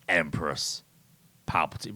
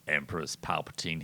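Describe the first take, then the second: First: It is said with a pause between words. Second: It is said quickly with no pause.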